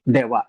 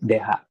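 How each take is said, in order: First: The second syllable starts with a w sound. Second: The second syllable starts with an h sound. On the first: The speaker calls it right. "pinopronounce natin yan ng dewa" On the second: The speaker calls it wrong. "hindi po deha"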